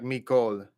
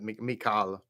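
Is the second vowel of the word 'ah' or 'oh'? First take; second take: oh; ah. First: The second vowel sounds like 'oh'. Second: The second vowel sounds like 'ah'. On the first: This is how people actually say it. "instead of Mikal, it would be like Mikol" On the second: This is the reading that follows the written letters. "you read this and it's it would be like Mikal. That's how you would say it"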